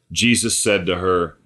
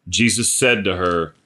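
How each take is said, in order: Both takes have the same delivery.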